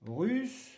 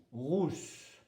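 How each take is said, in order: First: "Russe" with a tight French U; higher "Russe", fronted U then S; U sound, not OU. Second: "rousse" with a rounded back OU; "rousse", OU vowel then S; OU sound, not U. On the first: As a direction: say "Russe" clearly distinct from rousse. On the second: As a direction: say "rousse" clearly distinct from russe. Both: Shown as a demonstration. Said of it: "ne pas confondre avec russe".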